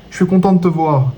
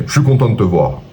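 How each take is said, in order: First: High-pitched gushing greeting; pitched-up, sing-out delivery; tonality demo, high. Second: Lower, more grounded greeting; matter-of-fact tone, pitch coming down; tonality demo, lower. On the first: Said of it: "Ta tonalité ... si je te dis". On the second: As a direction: say it in your normal lower register. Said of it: "c'est pas tout à fait la même chose". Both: Shown as a demonstration.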